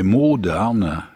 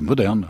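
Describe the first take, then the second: First: The word is pronounced with German sounds. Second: The word is pronounced with French sounds. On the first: It means to rot. "comme verbe, c'est pourrir" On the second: It means modern. "prononcé à la française"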